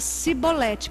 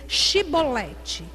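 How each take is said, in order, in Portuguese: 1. A palavra começa com o som de 's'. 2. A palavra começa com o som de 'sh'. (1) "eles não conseguiam, falava Cibolete" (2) "dize pois Shibolete"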